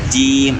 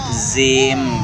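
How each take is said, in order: First: It begins with j and has a full i. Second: The word begins with a z sound. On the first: The speaker calls it right. "jadi agak ditarik ke bawah supaya kasrohnya betul-betul tam sempurna" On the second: The speaker calls it wrong. "banyak ya anak-anak mengucapkannya"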